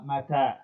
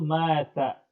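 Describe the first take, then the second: First: The first vowel is short, the second long. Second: The first vowel is long, the second short. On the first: It means when. The speaker calls it right. "inama mata, hakada. Jadi yang panjang itu taknya" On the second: It means died. The speaker calls it wrong. "la, uh, taqul mata"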